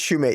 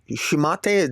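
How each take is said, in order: First: The first syllable sounds like 'shoe'. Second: The first syllable sounds like 'shih'. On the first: The speaker calls it right. "It's Shoemate, yeah" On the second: The speaker calls it wrong. "did I say that right?"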